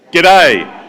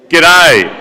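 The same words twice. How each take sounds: First: "G'day" called out loud and higher, Australian style; Aussie greeting in chorus. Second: Pinch your nose and call "G'day" with a twang; nosy Aussie twang. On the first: Room practises the Australian greeting on cue: loud shouted G'day. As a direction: shout "G'day" together on three. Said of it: "what I'd like you all to do is practice that". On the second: Whole room mocks the Australian twang, noses held: pinched nasal G'day. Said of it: "you have to hold your nose". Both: Shown as a demonstration.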